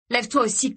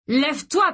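First: Higher, firm command to stand; first order. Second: Higher and louder furious yell; yelled order. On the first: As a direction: tell him to get up with contempt. Mark ordering Gray up. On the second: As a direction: scream it at him, losing control. Mark repeating order, enraged. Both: Acted.

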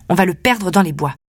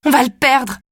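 First: Said in the usual way. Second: Sudden panicked cry. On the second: Acted. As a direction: blurt it out in a panic. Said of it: "Je panique".

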